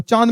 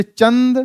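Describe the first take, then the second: First: चांद with long nasalized aa; chandrabindu demo. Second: चंद with short vowel and clear n; careful chand with a nasal consonant; anusvara demo. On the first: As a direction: hum चांद through the vowel. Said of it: "इसका होता है औ". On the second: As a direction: sound the n fully in चंद. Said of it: "इसका होता है अंग". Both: Shown as a demonstration.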